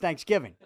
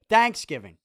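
First: The stress is on the second part, giving. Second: The stress is on the first syllable, thanks. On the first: The speaker calls it right. "No, it's Thanksgiving" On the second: The speaker calls it wrong. "You put the emphasis on the thanks"

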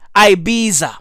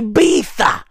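First: The name has a plain English pronunciation. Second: The name has a Castilian Spanish pronunciation. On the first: The speaker calls it wrong. "not Ibiza" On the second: The speaker calls it right. "I speak a bit of Castilian. Okay, bruv? Hey, I say Ibiza"

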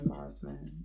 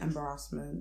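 First: It is said with a standard pronunciation. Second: It is said with a Nigerian-style pronunciation. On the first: "instead of embarrassment" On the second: "Some people will be saying embarrassment"

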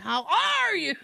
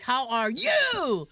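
First: The word 'are' is stressed. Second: The word 'are' is not stressed. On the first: The speaker calls it wrong. "But he emphasized R. It was like" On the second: The speaker calls it right. "I can see like"

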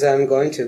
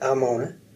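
First: The words are said fully and separately. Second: The words are blended into one reduced word. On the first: "it's really not just one word" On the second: "you start to view Amona as just one word"

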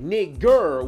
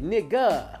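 First: The word ends in a hard 'r' sound. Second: The word ends in an open 'ah' vowel. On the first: It is the outsider form carrying racist force. "with a hard ass R at the end" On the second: It is the casual in-group form. "with an A at the end"

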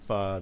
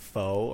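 First: The word is not said like 'faux'. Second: The word is said like 'faux'. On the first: The speaker calls it right. "like pho, the food" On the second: The speaker calls it wrong. "She pronounced it like faux or something like that"

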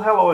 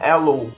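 First: The h at the start is pronounced. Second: The h at the start is dropped.

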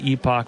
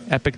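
First: The word is said the British way. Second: The word is said the American way. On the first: "If you're British or Canadian" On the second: "If you're an American"

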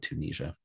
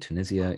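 First: The name is said with an American pronunciation. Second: The name is said with a British pronunciation. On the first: "in the US, they say Tunisia" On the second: "in the UK, they say Tunisia"

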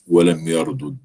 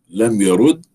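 First: The two consonants are split with a vowel between. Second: The doubled consonant is merged into one geminate. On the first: "وعدم الإدغام" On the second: "يجوز الأمران، الإدغام وعدم الإدغام"

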